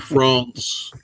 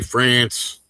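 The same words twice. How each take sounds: First: France is said with a non-American accent. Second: France is said with an American accent. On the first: The speaker calls it right. "instead of France" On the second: The speaker calls it wrong. "when Americans say France"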